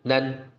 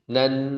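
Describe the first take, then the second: First: The n is said without nasal resonance. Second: The n is said with clear nasal resonance. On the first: The speaker calls it wrong. "enggak nan" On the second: The speaker calls it right. "tapi nan dari hidung juga terasa keluar"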